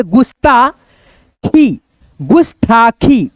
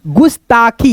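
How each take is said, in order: First: गुस्ताखी very slow and drawn out; slow demo. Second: Said in the usual way. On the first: Shown as a demonstration. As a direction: drag गुस्ताखी out for the class. (गुस्ताखी धीरे खींचकर) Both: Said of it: "मिला करके पढ़ेंगे".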